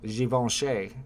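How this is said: The name is said with a French-style pronunciation. The speaker calls it right. "you got to get really French with that one"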